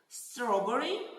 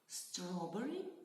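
First: The word is said loudly. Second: The word is said quietly.

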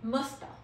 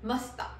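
First: The words merge into one reduced word. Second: The words merge into one reduced word.

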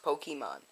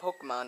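First: The middle E is pronounced as a full vowel. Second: The middle E is silent or swallowed. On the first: The speaker calls it right. "because there's an accent over the E" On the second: The speaker calls it wrong. "it's not Pokemon"

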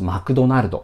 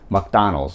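First: It is said with Japanese syllables and vowels. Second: It is said with English vowels and stress. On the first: "マクドナルドなんですけども" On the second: "マクダーナルズの発音とかですね"

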